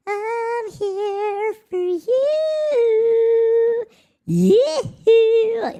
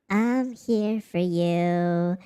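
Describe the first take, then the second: First: Crooned high, drawn-out and loud; sung high and loud. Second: Slow plain. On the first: Pretend. Serenading a new subscriber, in a high drawn-out croon. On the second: Shown as a demonstration.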